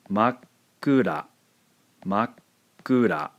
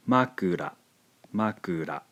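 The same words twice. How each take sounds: First: Makura with a silent beat after ma; small tsu pause. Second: Said in the usual way. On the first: Shown as a demonstration. Teacher contrasting Makura with the small tsu. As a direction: stop briefly after ma in Makura. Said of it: "insert a small tsu". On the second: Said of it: "pronounced makura".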